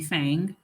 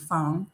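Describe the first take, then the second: First: The name is said with an American vowel. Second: The name is said with a Chinese vowel.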